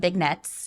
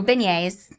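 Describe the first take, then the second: First: A hard g is pronounced, like in big. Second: The g is silent.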